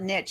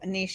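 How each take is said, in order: First: The word is said with an English-style pronunciation. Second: The word is said with a French-style pronunciation. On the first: Some other people say it this way. The speaker calls it wrong. "I've heard some people call it niche, and it drives me crazy" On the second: This is the speaker's own preferred way. The speaker calls it right. "I speak French and English, and so niche is is the way I like to say it"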